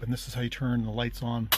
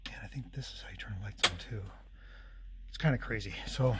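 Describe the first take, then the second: First: Said in the usual way. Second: Fast unvoiced whisper. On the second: Real, not acted. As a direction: whisper it quickly. Shows two ways to turn lights on.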